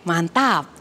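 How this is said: The T sound is light and smooth. It sounds like a neutral national accent. The speaker calls it right. "jadi T-nya diperhalus aja, nggak usah ditekan"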